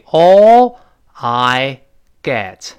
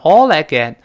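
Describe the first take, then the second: First: The words are said separately without linking. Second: The words are run together in one chunk.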